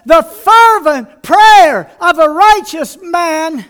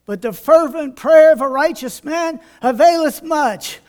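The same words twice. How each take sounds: First: Loud, slow preached proclamation; emphatic scripture. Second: Said in the usual way. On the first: Acted. Preacher proclaiming the verse to the church, loud and slow. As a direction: hammer home the verse.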